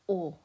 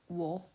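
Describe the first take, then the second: First: It is a plain vowel with no w. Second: It starts with a w sound before the vowel. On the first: The speaker calls it right. "It's pronounced o" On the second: The speaker calls it wrong. "not wo"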